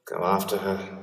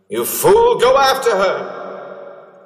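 First: Said in the usual way. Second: High, loud and urgent; shouting. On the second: Acted. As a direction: yell it desperately at him. Urgent shout at his past self.

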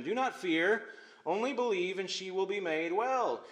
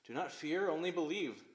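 First: Encouraging. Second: Gentle reminder. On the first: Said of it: "He's encouraging Jairus". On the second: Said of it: "Jesus is reminding him". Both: Acted.

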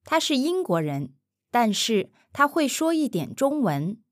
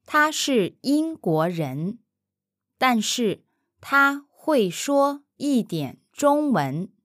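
First: 他是英国人，但是他会说一点中文 at an easy, quick native pace; now say it the way a native would, fast; natural speed. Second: Syllable by syllable, slowly and carefully; slow careful model. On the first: Mandarin teacher repeating at natural speed for the learner. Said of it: "natural repeat after model". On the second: Mandarin teacher modelling for the learner, slowly and carefully. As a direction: spell out 他是英国人，但是他会说一点中文 slowly for the learner. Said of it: "slow model take before repeat". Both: Shown as a demonstration.

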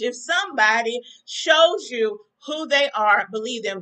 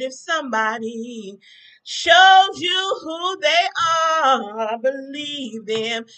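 First: Said in the usual way. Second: Very slow preacher cadence with a rising swell on shows; preaching it slowly. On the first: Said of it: "If I knew how to say it in Spanish". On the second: Acted. To her viewers about Trump, slow preaching. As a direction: stretch every word like a sermon closer. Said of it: "I'm singing my song".

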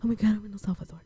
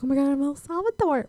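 First: Softer, understated retelling; muted replay of the excitement; toned-down exclamation. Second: High-pitched excited exclamation; giddy retold excitement. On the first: Retold or imitated. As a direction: repeat the exclamation softly, near your usual pitch. Repeats the arrival exclamation, toned down. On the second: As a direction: act out a thrilled arrival, voice lifting high. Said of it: "I was so excited".

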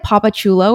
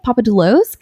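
First: "Papa Chulo" with a CH sound starting the second word; "Papa Chulo" ending on an open O, no S; butchered surname. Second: "Papa Doulos" with a D and a final S; "Papa Doulos" ending firmly in S, not CHOO-lo; correcting the surname. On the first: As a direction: say "Papa Chulo", CHOO-lo, for the misread name. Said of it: "I literally butchered". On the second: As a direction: say "Papa Doulos", DOO-lohs, as a questioning correction. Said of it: "'Cause that's my last name". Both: Retold or imitated.

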